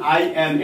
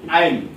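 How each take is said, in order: First: Two separate full words are said. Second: The words are joined into one short form. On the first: "যেমন আই এম" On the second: "এটা সংক্ষেপ হলো"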